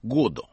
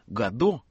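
First: The stress is on the first syllable. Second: The stress is on the last syllable. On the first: This is how the author himself said it. "с ударением на первом слоге" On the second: This is the usual habitual pronunciation. "как мы привыкли произносить"

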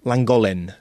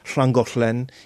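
First: It is said the English way, with a plain L. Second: It is said the Welsh way, with a hissed LL.

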